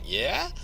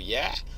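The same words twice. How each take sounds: First: It sounds surprised and questioning. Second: It sounds like a plain, neutral answer. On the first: What was said is surprising. "somebody says something I think is surprising" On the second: It simply answers a question. "you ask me a question, I go yeah"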